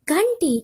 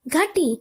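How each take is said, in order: First: The word is said with a nasal sound. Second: The word is said without a nasal sound.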